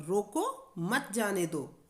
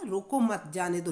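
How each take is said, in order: First: Slow रोको, a break, then मत जाने दो together; pause after रोको. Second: रोको मत punched as one phrase, then जाने दो; pause after मत. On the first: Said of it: "रोकने का भाव". (रोको के बाद विराम, मत जाने दो साथ में) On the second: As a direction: join मत to रोको, break before जाने दो. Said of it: "ना रोकने का भाव". (रोको मत साथ में, फिर जाने दो) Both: Shown as a demonstration.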